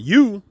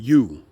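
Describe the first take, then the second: First: The pitch rises at the end. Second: The pitch falls at the end. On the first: This is one person's name. "the first name end up" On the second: This is another person's name. "the second name end down"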